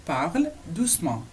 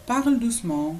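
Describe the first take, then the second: First: "Parle doucement" slowly, with a break after "Parle"; word by word. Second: Said in the usual way. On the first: Shown as a demonstration. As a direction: separate the two words for learners. Teacher separates the two words.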